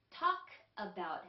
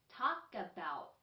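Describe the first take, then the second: First: The two words are said separately. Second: The two words are linked together. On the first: The speaker calls it wrong. "talk about가 아니라" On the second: The speaker calls it right. "K도 약했을 때 끄 소리가 나서"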